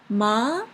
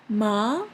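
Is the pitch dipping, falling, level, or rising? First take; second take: rising; rising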